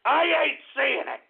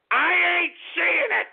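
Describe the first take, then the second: First: Slow sarcastic repeat. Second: Indignant outburst. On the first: Second take, slower. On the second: First of repeated line, high and loud. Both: Real, not acted.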